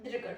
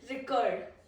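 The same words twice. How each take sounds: First: The stress is on the first syllable. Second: The stress is on the second syllable. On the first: It is used as a noun. "This is a noun" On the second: It is used as a verb. "verbs are on the second syllable"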